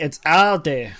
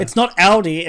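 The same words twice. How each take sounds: First: Aldi as ADE, the right way; corrected Aldi. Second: Aldi said the Australian way, AL-dee, loud; wrong Aldi. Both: Shown as a demonstration. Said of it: "It's not Aldi, it's Aldi".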